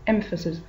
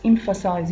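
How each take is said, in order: First: EMPHASIS with a short, unstressed "-sis" ending; "emphasis" stressed on the first syllable, short final vowel; noun pronunciation. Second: EMPHASIZE with a long "eye" vowel in "-size"; "emphasize" with a full final "-size", ending in a z sound; verb pronunciation. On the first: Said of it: "but the noun is emphasis". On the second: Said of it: "But here it's a verb". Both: Shown as a demonstration.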